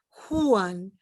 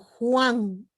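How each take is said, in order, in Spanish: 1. La U suena tan fuerte como la A. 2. La U es débil y la A resalta. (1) "no digo Juan" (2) "digo Juan"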